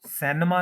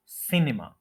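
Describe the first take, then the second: First: सिनेमा as "SEN-uh-ma"; common mispronunciation. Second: सिनेमा as "SIN-i-ma", first syllable stressed; correct pronunciation. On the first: Teacher warning against the wrong form, mispronounced. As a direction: give सिनेमा an "e" first vowel. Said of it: "सिनेमा नहीं कहेंगे". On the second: Teacher giving the corrected form, careful pronunciation. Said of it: "first के ऊपर stress है". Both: Shown as a demonstration.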